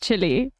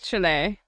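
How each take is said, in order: First: The name sounds like the word chilly. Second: The name does not sound like chilly. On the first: This is how South Africans say it. "South Africans call it chili. I was taught to pronounce it as chili" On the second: This is the standard way to say it. "I know it's Chile"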